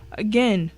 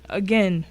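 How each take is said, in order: Both takes have the same delivery.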